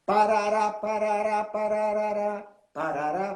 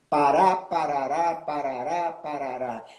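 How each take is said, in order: First: Chanted, steady even beats, parará parará with equal stress on each; chanted, tap out the fixed martelo beat on parará; martelo rhythm chant. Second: Parará with a rolling lilt that falls away low at the end; galope beira-mar rhythm. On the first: Teacher showing the listeners the martelo's fixed rhythm, evenly chanted. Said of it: "tem uma prosódia fixa". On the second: Teacher contrasting the galope beira-mar rhythm with the martelo, lilting chant. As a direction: swing the galope beat on pará, parará, then let it drop. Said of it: "que é a seguinte".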